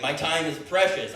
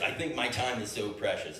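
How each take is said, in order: First: Self-important. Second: Said in the usual way. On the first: Shown as a demonstration.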